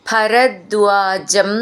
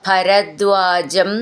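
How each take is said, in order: No difference in how they are said.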